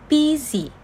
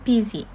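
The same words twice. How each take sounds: First: "busy" split into two beats, bu-sy; syllable by syllable. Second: Said in the usual way. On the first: Shown as a demonstration. Teacher showing two vowel sounds, "busy" syllable by syllable. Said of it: "only produce two vowel sound". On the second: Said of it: "word that have two syllable".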